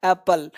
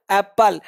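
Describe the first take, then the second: First: एप्पल as "apl", one light P; correct single P. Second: एप्पल split as ap-pal, P held; wrong doubled P. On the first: Shown as a demonstration. Teacher corrects learners, एप्पल with single P. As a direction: let the ending of एप्पल shrink to "pl". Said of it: "इसका sound होगा एप्पल". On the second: Retold or imitated. Teacher imitates wrong speakers, एप्पल with doubled P. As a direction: hit both Ps in एप्पल. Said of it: "यह sound सौ percent गलत है".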